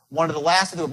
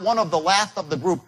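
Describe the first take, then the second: First: The words are run together as one word. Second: The words are said separately, broken apart.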